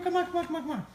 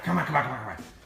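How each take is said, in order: First: It is said in a happy, high-pitched tone. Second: It is said in a hard, stern tone.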